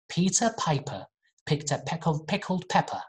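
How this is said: It is spoken in a British accent.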